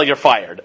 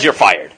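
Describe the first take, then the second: First: Low, clipped boardroom dismissal, lightly done; a hint of Trump firing someone; mild Trump impression with a lower voice; Donald Trump style. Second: Said in the usual way. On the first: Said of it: "In Donald Trump style".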